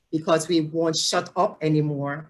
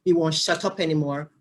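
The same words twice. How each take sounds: First: Light Jamaican accent slipping out; lilting Jamaican English, unplanned. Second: Said in the usual way. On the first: Real, not acted. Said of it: "my Jamaican accent coming out". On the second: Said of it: "I'm sorry, my Jamaican accent coming out".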